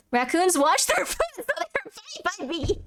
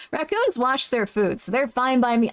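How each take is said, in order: First: High, breaking into helpless laughter; laughing. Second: Said in the usual way. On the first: Real, not acted. Streamer reading out a remark about raccoons, cracking up. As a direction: lose it halfway, slowing and fading into squeaks.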